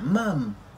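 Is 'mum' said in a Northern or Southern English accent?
Southern. It is said in a Southern English accent. "If you're from the South, you're like... They're like"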